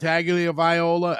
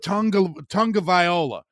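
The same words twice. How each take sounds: First: The name is said without an N sound. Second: The name is said with an N sound. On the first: The speaker calls it right. "I don't pronounce an N in Tagovailoa" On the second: The speaker calls it wrong. "you always hear guys call him Tua Tagovailoa"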